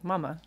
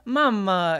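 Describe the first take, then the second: First: It is said with a plain American accent. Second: It is said with an Italian-style accent. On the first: This is the usual way it is said. "instead of like mama" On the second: This is how the child says it. "She also kind of has like a little bit of an accent"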